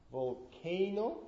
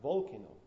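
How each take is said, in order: First: Volcano with a long, stressed CA, "vol-KAY-no"; stress on second syllable. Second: Volcano as "VOL-kuh-no"; wrong stress, first syllable. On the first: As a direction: slowly lean on the middle syllable of Volcano. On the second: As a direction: hit VOL and swallow the middle of volcano. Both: Shown as a demonstration. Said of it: "K rather than volcano".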